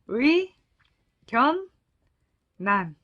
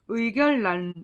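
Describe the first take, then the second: First: The middle consonants sound like a double n. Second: The middle consonants sound like a double l. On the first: The speaker calls it right. "의견 난 이렇게 발음을 하면 되겠고요" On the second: The speaker calls it wrong. "의견란 이렇게 발음을 하진 않거든요"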